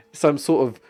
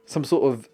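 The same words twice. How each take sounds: The two takes are said the same way.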